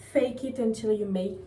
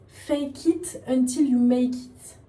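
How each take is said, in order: First: Said in the usual way. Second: "Fake it until you make it" stretched slowly, every word pressed; emphatic retry. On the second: Real, not acted. Vlogger retrying an English saying for viewers, slow and emphatic "Fake it until you make it".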